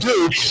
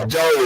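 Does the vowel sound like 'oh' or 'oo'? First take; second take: oo; oh. First: The vowel is an 'oo' sound. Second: The vowel is an 'oh' sound. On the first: The speaker calls it wrong. "instead of do" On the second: The speaker calls it right. "it's dough instead of do"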